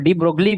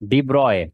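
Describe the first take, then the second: First: The surname is said with g and l sounds. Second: The surname is said without g and l sounds. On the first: The speaker calls it wrong. "जैसे हम लोग डी ब्रोगली बोलते हैं" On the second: The speaker calls it right. "Actual pronunciation is डी ब्रॉय"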